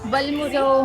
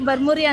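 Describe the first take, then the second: First: The middle consonant is an l sound. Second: The middle consonant is an r sound. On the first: The speaker calls it right. "ಅದು ಬರ್ಮುರಿ ಅಲ್ಲ" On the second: The speaker calls it wrong. "Wrong ಪ್ರನೌನ್ಸ್ ಮಾಡ್ತಾ ಇದ್ದೆ"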